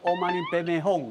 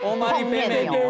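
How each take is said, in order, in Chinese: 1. 咒语结尾的音节像 bei bei hong。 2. 咒语结尾的音节像 bai mei niu。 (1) "应该叫做乌玛尼贝贝哄啊" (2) "你迄字念对了"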